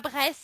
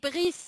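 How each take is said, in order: First: The name has an English-style vowel, like 'bry'. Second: The name has a French-style vowel, like 'bree'. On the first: The speaker calls it wrong. "ça se dit pas Brest" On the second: The speaker calls it right. "ça se dit Brice"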